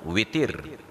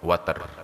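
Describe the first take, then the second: First: The first vowel is an 'i' sound. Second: The first vowel is an 'a' sound. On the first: "dibaca dengan kasrah waw" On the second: "dibaca dengan fathah waw"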